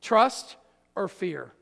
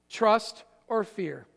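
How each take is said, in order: First: Said in the usual way. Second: Slow, deliberate Trust or fear with a pause between; slow emphatic. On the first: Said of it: "two choices". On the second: Shown as a demonstration. Pastor drilling the two choices into the church, slow. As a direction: lay each word down slowly. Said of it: "write these two words".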